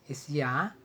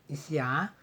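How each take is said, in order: The two takes are said the same way.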